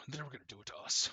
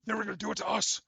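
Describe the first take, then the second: First: Rushed, weird otherworldly voice in the low register. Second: High, loud, distorted otherworldly voice; high weird voice. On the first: Shadowed figure as Aphrodite justifying the killing, weird lower-pitched voice. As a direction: race through it in a distorted, eerie voice. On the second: Shadowed figure as Aphrodite justifying the killing, high weird voice. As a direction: throw it up high and loud, eerily strained. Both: Acted. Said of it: "like, high and low pitch, this weird voice".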